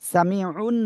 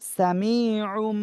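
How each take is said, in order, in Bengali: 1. শব্দটি n ধ্বনি দিয়ে শেষ হয়। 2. শব্দটি m ধ্বনি দিয়ে শেষ হয়। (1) "সামিউন না হয়ে" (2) "সামিউম বাসীর, এভাবে পড়তে হবে"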